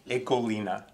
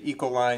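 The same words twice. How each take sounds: First: The word is said with a Dutch pronunciation. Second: The word is said with an American pronunciation. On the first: "the appropriate and correct pronunciation in Dutch" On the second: "Most often you will hear people in the U.S. say Ecoline"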